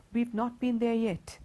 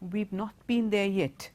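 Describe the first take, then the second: First: We and have are joined into one contracted syllable. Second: The same.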